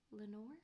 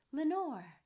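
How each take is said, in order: First: Soft questioning call, rising at the end; hushed, whispered word. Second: Loud, high call falling away; echoed cry. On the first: Lone man calling into the silent dark, hushed and questioning. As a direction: breathe the name as a tentative question. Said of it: "was the whispered word". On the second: Echo answering the man's word from the dark, loud falling cry. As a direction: send the name ringing back as an echo. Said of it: "an echo murmured back the word". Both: A narrator's reading.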